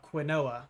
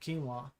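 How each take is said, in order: First: Every letter of the word is sounded out. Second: The word is said the usual reduced way.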